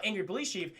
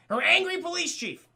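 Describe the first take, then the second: First: Said in the usual way. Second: Angry hit higher and louder; stress on angry. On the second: Real, not acted. Correcting the chat, punching "angry" loud and high. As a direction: lean hard on "angry".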